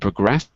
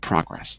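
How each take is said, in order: First: The stress is on the second syllable. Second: The stress is on the first syllable. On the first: It is used as a verb. "as a verb, it's on the second syllable" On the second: It is used as a noun. "It's the first syllable"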